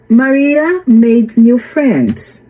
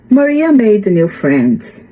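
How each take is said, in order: First: It is read at a slower pace. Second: It is read at a faster pace.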